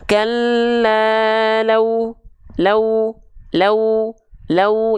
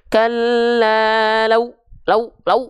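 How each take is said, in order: First: The 'lau' is said gently and softly. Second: The 'lau' is said roughly and harshly. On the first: The speaker calls it right. "harus kita baca lembut" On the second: The speaker calls it wrong. "bukan ... enggak kasar begitu"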